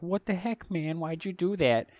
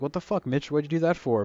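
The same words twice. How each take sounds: First: Higher, kiddish squeak on the same retort; clean kid version. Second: A touch of an angry retort, as the swearing version; mock angry retort. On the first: Retold or imitated. Eleven-year-old me scolding Mitch, in a higher, childish voice. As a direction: replay it as the polite boy who won't swear. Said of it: "back then that was forbidden". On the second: Kid telling off Mitch, mildly angry and swearing. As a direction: snap it out like a kid annoyed at a bully. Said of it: "But I didn't say fuck".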